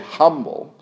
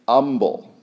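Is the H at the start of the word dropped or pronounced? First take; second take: pronounced; dropped. First: The word begins with a clear H sound. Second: The word begins without any H sound. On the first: "They don't say humble" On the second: "They drop the H"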